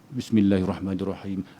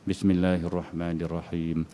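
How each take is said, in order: First: It is recited at a fast, hurried pace. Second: It is recited at a moderate, even pace. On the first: "Kita baca laju" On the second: "Sederhana lah tu kan"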